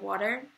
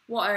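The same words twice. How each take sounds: First: It is said in an American accent. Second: It is said in a British accent. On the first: "instead of water" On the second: "I would even say water"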